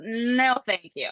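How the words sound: It is said in a sassy, attitude-filled tone.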